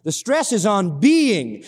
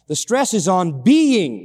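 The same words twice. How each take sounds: First: Slow, weight dropped on being; repeated slow line with being emphasized; stress on being. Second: Slow, leaning hard on being; slowed phrase landing firmly on being; stress on being. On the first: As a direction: press being home a second time. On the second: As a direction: draw out being as the key word. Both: Shown as a demonstration. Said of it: "That's the word you're gonna have to see".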